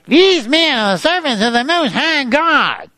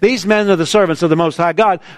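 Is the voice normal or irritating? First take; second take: irritating; normal. First: It is said in an irritating, eerie voice. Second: It is said in a normal, plain voice.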